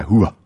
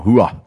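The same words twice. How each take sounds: First: Hooah answered back with a rising end; troops' reply. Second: Clipped military call, falling; military drill leader calling Hooah. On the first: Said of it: "they reply". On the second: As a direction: bark the Hooah sharply with a falling end like a drill sergeant. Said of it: "We'll tell them, you know". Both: Retold or imitated.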